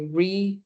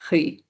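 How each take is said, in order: First: The R is a plain, unrolled sound. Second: The R is a rolled, throaty sound. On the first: "if, again, you can't roll your R's, just say riz" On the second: "or if you can"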